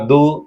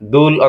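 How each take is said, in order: First: The word ends without the l sound. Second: The word ends with an l sound. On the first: "সংক্ষেপে ... দু" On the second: "দুল অথবা দু"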